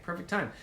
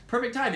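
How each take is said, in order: First: Said in the usual way. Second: Higher and louder, pushing the sell; emphatic repeat. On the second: Shown as a demonstration. To viewers, an excited selling repeat. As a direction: say it again with a burst of enthusiasm. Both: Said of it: "repeated with more energy".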